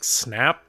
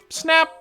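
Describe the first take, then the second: First: The voice rises at the end. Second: The voice falls at the end.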